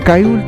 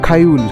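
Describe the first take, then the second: First: The first consonant is a plain k without breath. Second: The first consonant is a breathy kh sound. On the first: The speaker calls it wrong. "কায়ুল তো খায়ুল" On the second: The speaker calls it right. "তাই তো উচ্চারণটা খায়ুল"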